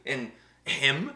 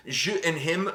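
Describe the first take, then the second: First: Said in the usual way. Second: "him" said the French way, rising at the end; "je and him" in a mock French accent. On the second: Shown as a demonstration. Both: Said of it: "I don't know how to say him in French".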